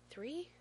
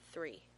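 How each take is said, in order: First: Put-on high, rising little-boy question; child's questioning echo. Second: Said in the usual way. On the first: A narrator's reading. Small son checks the number with dad, questioning.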